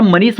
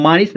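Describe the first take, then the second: First: मनीष with a short first vowel, ma-nees; the natural name मनीष, quick first vowel; correct मनीष. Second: मानीस with a long aa, maa-nees; the misreading मानीस, long first syllable; mispronounced मानीस. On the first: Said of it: "मनीष होता है". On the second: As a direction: stretch the first vowel of मानीस to aa. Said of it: "मानीस नहीं होता". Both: Shown as a demonstration.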